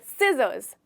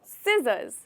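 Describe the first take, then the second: Both takes have the same delivery.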